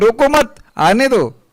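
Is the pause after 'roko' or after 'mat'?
after mat. The pause comes right after 'mat'.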